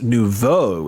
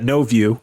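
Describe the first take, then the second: First: It is said the French way, noo-voh. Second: It is said like the English words no view. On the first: It is the proper name. The speaker calls it right. "that's actually pronounced nouveau. It's French" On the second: It mocks the driver. The speaker calls it wrong. "we always used to call it uh, no view, which is a slightly derogatory slang term"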